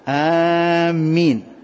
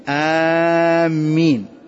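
The two takes are said the same way.

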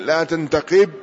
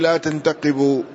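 First: The verb ends without a final u vowel. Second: The verb ends with a final u vowel. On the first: It is a prohibition. "يعني على سبيل النهي لا تنتقب" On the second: It is a statement of negation. "وعلى سبيل النفي لا تنتقب"

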